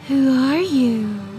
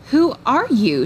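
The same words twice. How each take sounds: First: It is said in a put-on sexy voice. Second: It is said in a plain, normal voice.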